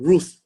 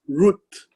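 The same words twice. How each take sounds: First: It is pronounced as the usual English name. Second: It ends with a soft T and H. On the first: The speaker calls it wrong. "not the English name Ruth" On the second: The speaker calls it right. "but the Hebrew name is Ruth"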